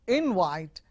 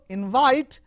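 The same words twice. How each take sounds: First: The stress is on the first syllable. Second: The stress is on the second syllable. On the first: An invitation. "if it is a noun" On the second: To call someone to a party. "as a verb"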